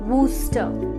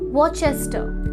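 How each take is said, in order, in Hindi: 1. इसका उच्चारण दो सिलेबल में होता है, woos-ter। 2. इसका उच्चारण तीन सिलेबल में होता है, war-ches-ter। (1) "बल्कि इसकी सही प्रोनाउंसिएशन है वूस्टर" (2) "नॉर्मली देखा जाए तो इसे हम ऐसे ही प्रोनाउंस करेंगे"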